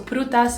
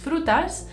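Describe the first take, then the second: First: The word begins with a p sound. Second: The word begins with an f sound. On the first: "prutas is the Tagalog way" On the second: "the Spanish is frutas"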